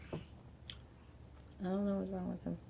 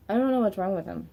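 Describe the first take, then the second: First: Much softer, slow, trailing under her breath; quiet slow mutter. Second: Said in the usual way. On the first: Real, not acted. Mother venting about her partner, repeating it softly and slowly to herself. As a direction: let it sink to a slow, soft mutter to yourself.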